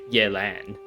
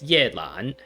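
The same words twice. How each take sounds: First: The name is said with English-style sounds. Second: The name is said with Chinese tones. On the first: "putting like an English spin" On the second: "with the like the proper tones"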